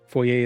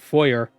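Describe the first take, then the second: First: The word is said with a French pronunciation. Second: The word is said with an English pronunciation. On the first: "Foyer is French" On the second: "but foyer is English"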